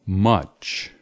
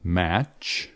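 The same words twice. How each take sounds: First: Much with the short /ʌ/ vowel; much, a short relaxed uh; option B. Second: Match with the open /æ/ vowel; Match, mouth wide on the a; option A. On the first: Teacher reading choice B, much with a short uh. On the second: Teacher reading choice A, match with an open a. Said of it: "Match, match, or much". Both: Shown as a demonstration.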